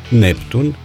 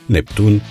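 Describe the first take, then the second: First: The stress is on the first syllable. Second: The stress is on the second syllable. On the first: The speaker calls it wrong. "anomalii de accentuare" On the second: The speaker calls it right. "în loc de"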